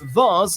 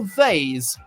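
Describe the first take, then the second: First: The vowel is long, as in 'Mars'. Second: The vowel rhymes with 'haze'. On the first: "vase like Mars ... The former is the British version" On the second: "vase like haze ... the latter the American"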